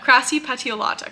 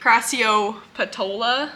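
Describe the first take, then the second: First: The word ends with the sounds 'petiolata'. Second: The word ends with the sounds 'petola'. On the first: The speaker calls it right. "I'm finally gonna start saying it correctly" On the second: The speaker calls it wrong. "I've just been saying crassiopetola"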